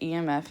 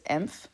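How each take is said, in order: First: Each letter is said separately. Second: It is said as one blended word. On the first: The speaker calls it right. "it's actually E M F. You say the letters E M F" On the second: The speaker calls it wrong. "I always pronounced it as"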